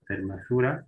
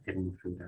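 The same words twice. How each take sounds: First: Hermosura said as fermosura, with an initial f; old form with f. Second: Said in the usual way. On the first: Shown as a demonstration. Teacher shows the old Latin-style hermosura to the class, with f. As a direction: start hermosura with a clear f sound, fer-mo-su-ra. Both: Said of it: "Desaparece la F".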